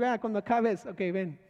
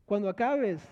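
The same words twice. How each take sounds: First: Sarcastic. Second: Said in the usual way. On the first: Retold or imitated. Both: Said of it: "empezaron sarcásticamente a decir".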